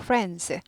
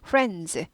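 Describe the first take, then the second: No difference in how they are said.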